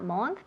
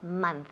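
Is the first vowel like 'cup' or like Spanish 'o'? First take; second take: Spanish o; cup. First: The vowel is a rounded Spanish-like o. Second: The vowel is an open, unrounded 'cup' sound. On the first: The speaker calls it wrong. "Not month" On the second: The speaker calls it right. "Ese O suena como si fuera una A"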